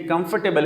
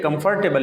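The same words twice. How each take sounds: First: کمفرٹیبل as "kumf-tebal"; light middle syllable in کمفرٹیبل; correct comfortable. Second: کمفرٹیبل as "kum-far-tebal"; full "far" inside کمفرٹیبل; mispronounced comfortable. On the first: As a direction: drop the r in کمفرٹیبل. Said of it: "یہ کمفرٹیبل ہے". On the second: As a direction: sound the r in کمفرٹیبل. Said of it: "کمفرٹیبل نہیں ہے". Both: Shown as a demonstration.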